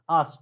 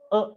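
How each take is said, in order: First: The word is said with a full vowel. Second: The word is said with a reduced vowel. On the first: "Us has a pronunciation, us or uh" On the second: "we use their weak forms"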